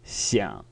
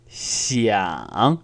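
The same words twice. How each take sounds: First: The pitch stays low with a soft creak. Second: The pitch clearly falls and then rises again. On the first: "the non-emphatic version is actually a, a softer sound" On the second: "Emphatic ... It's very explicit that I've gone down and then up"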